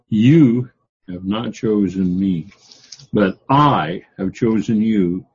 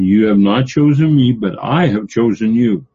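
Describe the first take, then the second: First: It is read with strong emphasis on key words. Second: It is read plainly, without special emphasis.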